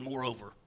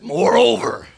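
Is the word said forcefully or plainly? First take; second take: plainly; forcefully. First: The word is said in a plain, ordinary way. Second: The word is said with strong, drawn-out force. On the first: "I love that word" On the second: "I like to even say it like this, This sounds powerful"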